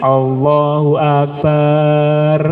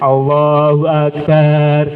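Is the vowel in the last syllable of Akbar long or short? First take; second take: long; long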